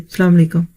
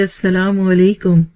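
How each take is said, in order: First: It is said curtly, without feeling. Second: It is said sweetly and warmly.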